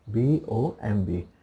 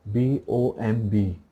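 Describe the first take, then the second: No difference in how they are said.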